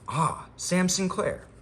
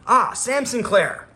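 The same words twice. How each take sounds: First: It is read softly, with little force. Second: It is read strongly, with more force.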